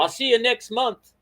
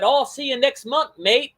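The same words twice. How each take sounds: First: Mock British accent pitched much higher, this time without mate; a clumsy British impression of a friend; terrible British accent. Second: Mock British accent, pitched much higher, with a chummy mate tacked on; a hammed-up British imitation of a friend; bad British accent. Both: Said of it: "that's a terrible British accent".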